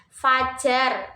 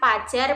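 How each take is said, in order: First: The word begins with an f sound. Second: The word begins without an f sound. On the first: The speaker calls it right. "Contoh kata yang benar adalah" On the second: The speaker calls it wrong.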